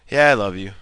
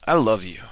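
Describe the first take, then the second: First: Offhand "Yeah" before "I love you"; insincere. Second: Lower, falling "I love you"; sincere. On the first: Instructor showing the less convincing way, insincere. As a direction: toss it out without meaning it. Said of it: "more sincere that sounds than". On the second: Instructor showing how love should sound, sincere. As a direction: say it low, as if you mean it. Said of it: "how more sincere that sounds". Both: Shown as a demonstration.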